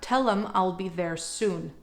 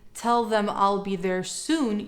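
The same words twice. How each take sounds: First: "Them" is reduced to a short "em". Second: "Them" is said as a full word. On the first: "another way of saying tell them is tell them" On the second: "instead of saying"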